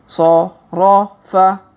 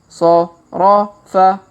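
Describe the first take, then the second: Both takes have the same delivery.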